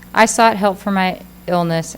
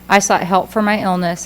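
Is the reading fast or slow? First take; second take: slow; fast. First: It is read slowly, at a careful pace. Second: It is read quickly, at a rushed pace. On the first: The speaker calls it right. "read much more slowly than you normally would" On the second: The speaker calls it wrong. "you're reading too fast"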